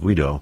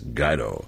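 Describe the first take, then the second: First: The first syllable does not sound like 'guide'. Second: The first syllable sounds like 'guide'. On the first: This is the family's original, Italian-sounding form. The speaker calls it wrong. "his family always pronounced the name Guido" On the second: This form suggests a leader who guides people. The speaker calls it right. "from now on, it's Guido"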